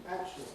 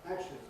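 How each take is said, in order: Both takes have the same delivery.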